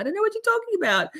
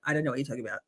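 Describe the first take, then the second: First: High, fast, baffled squeak; high-pitched confusion. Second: Low, soft, flat statement; blunt deadpan. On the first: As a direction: squeak it out, totally lost. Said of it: "I can't". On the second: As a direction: drop it bluntly, no fuss. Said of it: "I just straight up will go". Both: Retold or imitated.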